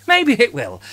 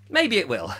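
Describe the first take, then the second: First: Maybe it will said higher and louder; emphatic repeat. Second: Said in the usual way. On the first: Shown as a demonstration. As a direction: land the "Maybe it will" firmly. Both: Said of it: "repeated louder".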